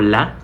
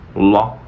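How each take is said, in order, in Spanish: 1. La "l" es clara, con la lengua adelante. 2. La "l" es oscura, con la lengua hacia atrás. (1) "no digo la" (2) "sino la"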